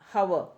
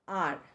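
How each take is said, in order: First: The word begins with a sounded H. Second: The word begins with a silent H. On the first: The speaker calls it wrong. "we don't say hover" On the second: The speaker calls it right. "It's called are"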